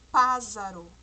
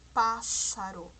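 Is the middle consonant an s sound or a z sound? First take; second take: z sound; s sound. First: The middle consonant sounds like a z. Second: The middle consonant sounds like an s. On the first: The speaker calls it wrong. "se eu colocar somente um S aqui ... nós vamos ler" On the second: The speaker calls it right. "Mas nós queremos"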